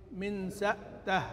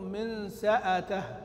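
First: A glottal stop follows 's' with no vowel after it. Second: A glottal stop follows 's' with a short 'a' after it. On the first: "قرأ بإسكان الهمزة" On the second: "بهمزة مفتوحة"

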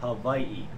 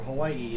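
First: The word is said the native Hawaiian way. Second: The word is said the common English way. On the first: This is the original pronunciation. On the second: This is how everyone says it now.

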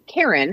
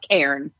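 First: The word is said with two syllables. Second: The word is said with one syllable. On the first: The speaker calls it wrong. "like the name Karen" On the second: The speaker calls it right. "use one syllable instead of two"

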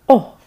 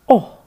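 No difference in how they are said.

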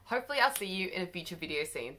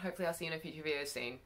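First: The sentence is said more slowly. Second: The sentence is said very quickly. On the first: The speaker calls it right. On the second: The speaker calls it wrong.

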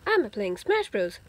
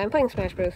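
First: It is said in a put-on character voice. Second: It is said in a normal speaking voice. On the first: "I'm not going to talk in that voice until I get it down" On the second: "I'm just going to talk in my normal voice"

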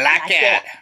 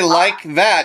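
First: It is said in a Texan drawl. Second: It is said in a neutral accent. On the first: "you say like that" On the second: "You don't say like that"

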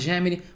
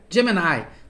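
First: The word is said with Portuguese sounds. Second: The word is said with English sounds. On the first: "vamos falar de um jeito mais simples aqui" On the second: "se você for pronunciar certinho como em inglês"

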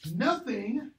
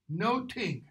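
First: The middle consonant is a 'th' sound. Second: The middle consonant is a plain 't' sound.

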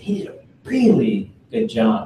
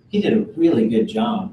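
First: The sentence is said with strong, heightened emphasis. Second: The sentence is said plainly, without extra emphasis.

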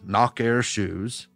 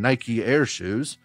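First: Nike is said in a southern accent. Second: Nike is said in a non-southern accent. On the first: "his southern accent kept saying" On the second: "I kept saying"

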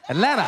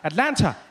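First: The t in the middle is dropped. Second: The word is said in full with the t. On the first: The speaker is adapting to the city. "The T was gone" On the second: The speaker has just arrived in the city. "when I got here, every time I said it, I'd say Atlanta"

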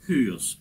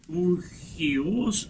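First: The h sound comes at the very start. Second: The h sound comes after the first vowel. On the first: The speaker calls it right. "Его нужно произносить именно как «хюйос»" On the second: The speaker calls it wrong. "не надо произносить это слово как «ухиос»"

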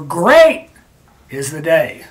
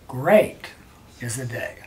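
First: Great is emphasized by a raised, loud voice. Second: Great is emphasized by a pause before it. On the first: The word is emphasized by loudness. "I can raise my voice and say" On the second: The word is emphasized by a pause before it. "and then I pause"

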